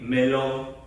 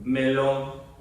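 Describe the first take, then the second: First: It is said flatly, like a robot. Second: It is said flatly, like a robot.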